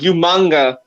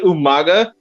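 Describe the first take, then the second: First: The name is said with an n before g. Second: The name is said with no n before g. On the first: This is how someone else mispronounced the name. The speaker calls it wrong. "so he called him Umanga" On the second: This is the name as it really is. The speaker calls it right. "He couldn't say Umaga"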